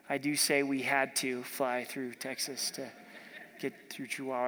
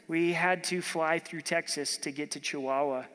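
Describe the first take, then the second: First: Lightly put-on Texan accent, a little lower. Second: Said in the usual way. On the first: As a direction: playfully imitate a Texan. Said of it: "they've got an accent".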